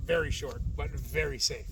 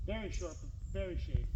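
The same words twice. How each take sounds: First: "very" said low and dry; stress on very. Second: "very" leaned on, dry irony; stress on very. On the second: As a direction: punch each "very" wryly. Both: Shown as a demonstration. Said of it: "Very short, very, very, very short".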